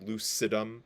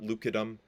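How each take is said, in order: First: The C is said as a soft S sound. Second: The C is said as a hard K sound. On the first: The speaker calls it right. "that's a, a soft C, so lucidum" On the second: The speaker calls it wrong. "not lucidum"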